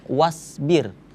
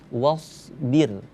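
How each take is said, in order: First: The s sound is a plain, thin s. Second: The s sound is a heavy, emphatic s. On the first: The speaker calls it wrong. "ini huruf sa kedengarannya" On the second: The speaker calls it right. "tapi huruf sha, jadi ketika diwaqafkan menjadi wasbir"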